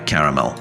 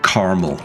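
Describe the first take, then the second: First: It is said with the non-American pronunciation. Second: It is said with the American pronunciation. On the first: This is how the speaker says it. "instead of uh, caramel" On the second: This is how the American spouse says it. "My wife, to be fair, is American, and she says um, caramel"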